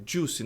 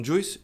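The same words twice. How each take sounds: First: JUICE as "joos"; JUICE, no i glide; correct pronunciation of juice. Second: JUICE as "joo-ees"; wrong pronunciation of juice. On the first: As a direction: say "juice" with only a U sound. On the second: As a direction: sound the i in "juice". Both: Shown as a demonstration. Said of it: "não juice".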